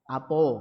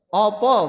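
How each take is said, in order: First: The first vowel is a, the last o. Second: Both vowels are said as o. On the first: "Orang Palembang misalkan sono apo" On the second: "Opo bahasa Jawa"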